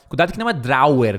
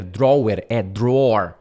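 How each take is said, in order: First: "drawer" in two syllables, dro-wer; the mistake to avoid, drawer as drower; wrong pronunciation. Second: "drawer" in one syllable, like dror; the correct model, drawer as dror; right pronunciation. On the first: ("drawer" errado, em duas sílabas) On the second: ("drawer" certo, numa sílaba só) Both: Shown as a demonstration.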